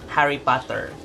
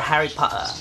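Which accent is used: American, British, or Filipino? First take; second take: Filipino; British. First: It is said in a Filipino accent. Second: It is said in a British accent.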